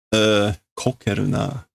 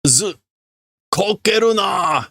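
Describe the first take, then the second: First: Said in the usual way. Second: Angry shout. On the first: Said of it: "repeats the phrase to translate". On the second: Acted. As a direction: shout the order at him. Workers shout at the leader.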